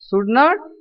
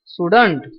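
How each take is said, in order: First: It is said as two full words. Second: It is said as one contracted word.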